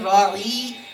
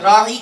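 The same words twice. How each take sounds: First: The vowel in the middle is drawn out long. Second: The vowel in the middle is kept short. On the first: It means shepherd, as an insult. The speaker calls it wrong. "थोड़ा सा लंबा करके पढ़ें" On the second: It asks for consideration. The speaker calls it right. "राई का मन होता है रियायत कीजिए"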